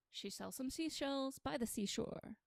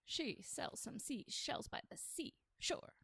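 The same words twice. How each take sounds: First: Said in the usual way. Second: Slow whispered tongue twister; slow hushed twister. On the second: Shown as a demonstration. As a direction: whisper each word slowly.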